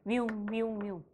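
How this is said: The siren sound is imitated at a low pitch. The sound source has passed and is moving away. "뒤쪽에서는 저음으로 들립니다"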